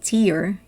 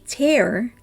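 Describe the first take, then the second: First: The vowel sounds like the one in 'ear'. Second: The vowel sounds like the one in 'air'. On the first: It is a drop that falls from the eyes. "if you pronounce it tear, it's the tear that falls from your eyes" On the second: It means to rip something apart. "if you say tear, it means to rip apart"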